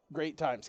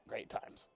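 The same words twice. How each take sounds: First: Said in the usual way. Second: "Great times" whispered, much softer; softly whispered "Great times". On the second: Real, not acted. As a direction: breathe "Great times" under your breath. Repeats phrase whispered.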